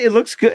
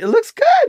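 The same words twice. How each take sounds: First: It is said at a normal pitch. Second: It is said at a high pitch.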